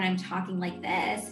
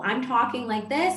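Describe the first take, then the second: First: The voice is creaky with vocal fry. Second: The voice is smooth with no creak. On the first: "I add a little bit of a vocal fry"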